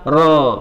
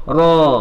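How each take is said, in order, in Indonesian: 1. Vokal itu diucapkan dengan mulut yang hanya terbuka. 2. Vokal itu diucapkan dengan mulut yang hanya terbuka.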